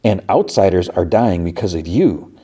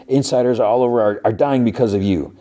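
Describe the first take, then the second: First: "outsiders" stressed in a level-pitched comeback; retold cool counter, weight on "outsiders"; measured retort. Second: Higher-pitched, lightly indignant blame; mild mock accusation. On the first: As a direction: throw the accusation back, leaning on "outsiders". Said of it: "like, long pause". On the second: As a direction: retell an accusation with a touch of outrage. His accusation, which she echoes back.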